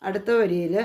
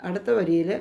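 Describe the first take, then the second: No difference in how they are said.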